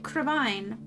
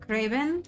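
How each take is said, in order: First: The last syllable rhymes with wine. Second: The last syllable does not rhyme with wine. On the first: "Crevine rhymes with wine" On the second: "I've heard it several ways"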